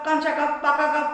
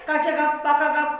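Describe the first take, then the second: No difference in how they are said.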